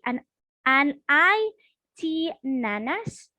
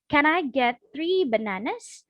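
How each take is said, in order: First: Sounds and syllables are dropped or distorted. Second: Every sound of the phrase is articulated clearly. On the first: The speaker calls it wrong. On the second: The speaker calls it right.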